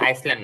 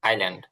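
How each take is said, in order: First: An s sound is pronounced after the first vowel. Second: No s sound is pronounced after the first vowel. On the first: The speaker calls it wrong. "ওটা কিন্তু আইসল্যান্ড না" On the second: The speaker calls it right. "But আইল্যান্ড"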